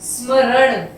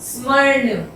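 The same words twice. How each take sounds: The two takes are said the same way.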